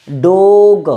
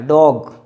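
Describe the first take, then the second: First: डोग said with a pure long o, like a Hindi o; wrong pronunciation. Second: डॉग with the vowel between o and aa; correct pronunciation. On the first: Teacher showing students the wrong way, a bit louder. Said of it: "ये दोनों गलत है". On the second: Teacher modelling the right vowel for students. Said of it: "ओ और आ के बीच का है". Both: Shown as a demonstration.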